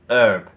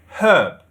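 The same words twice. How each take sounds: First: The word starts without an h sound. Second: The word starts with an h sound. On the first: "Like they've got rid of the H" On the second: "In British we say herb. There's a h"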